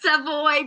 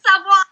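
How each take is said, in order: First: The name is said the English way. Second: The name is said the French way. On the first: This is the form used for the media. "I know it's Savoy" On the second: This is the real form of the name. "but it's real. It's Savoie"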